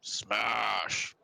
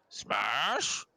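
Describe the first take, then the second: First: Drawn-out ogre exclamation, falling; one long, stretched SMASH, stated as a threat. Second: Puzzled ogre, rising to a question; stretched SMASH swooping up high. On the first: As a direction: bellow it lightly like a dim ogre. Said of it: "He looks at you and he goes". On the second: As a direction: ask it like a confused, hopeful ogre. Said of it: "the ogre goes". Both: Acted.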